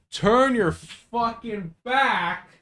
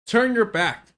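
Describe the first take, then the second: First: "turn your fucking back" drawn out slowly, higher, every word leaned on; insistent, dragged-out "turn your fucking back"; emphatic slow command. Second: "Turn your back" at a normal pace, higher, clipped short; quick restatement of "Turn your back"; "Turn your back" brisk, higher; firm repeat. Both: Real, not acted.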